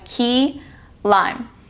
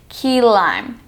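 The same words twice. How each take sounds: First: The two words are said separately. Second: The two words are blended into one. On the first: The speaker calls it wrong. "instead of going key lime" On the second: The speaker calls it right. "It's just easier to blend the words"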